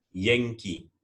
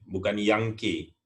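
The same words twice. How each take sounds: First: Yankee said yeng-ki; correct Yankee. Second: Yankee said yang-keh, read as spelled; wrong take, Yankee with a flat a. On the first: Teacher models the correct Yankee. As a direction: Yankee with e vowel and ending ee. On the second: Teacher shows the mistaken Yankee. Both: Shown as a demonstration.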